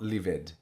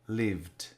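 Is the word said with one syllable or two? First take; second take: two; one. First: The ending is a separate extra syllable. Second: The ending is not a separate syllable. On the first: The speaker calls it wrong. "not lived" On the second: The speaker calls it right. "we don't pronounce the ed"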